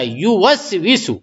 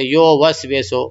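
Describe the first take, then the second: First: The first vowel is an 'u' sound. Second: The first vowel is an 'o' sound. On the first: The speaker calls it right. "मारूफ पढ़ने का युवस विशु" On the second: The speaker calls it wrong. "वो लोग ऐसा पढ़ते"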